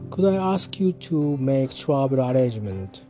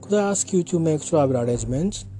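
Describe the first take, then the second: First: The voice falls at the end, British style. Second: The voice rises at the end, American style.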